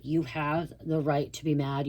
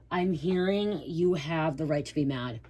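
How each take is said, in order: First: "You have the right to be mad" said slowly, each word weighted; slow down and press "You" to affirm the listener; slow insistence. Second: Said in the usual way. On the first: Shown as a demonstration.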